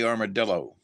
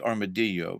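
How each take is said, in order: First: The word is said with an American pronunciation. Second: The word is said with a Spanish pronunciation. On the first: "Americans would say armadillo" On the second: "Spanish would say armadillo because of the double L"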